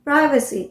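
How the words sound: It is said with an American English accent. "is American pronunciation"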